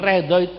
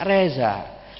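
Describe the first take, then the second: First: The middle consonant is a 'dh' sound. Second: The middle consonant is a 'z' sound. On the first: This is the fluent Arabic-style pronunciation. The speaker calls it right. "Bilang Ridho" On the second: This is how people from there say it when they cannot manage the sound. The speaker calls it wrong. "Orang sana bilang Ali Ridho gak bisa"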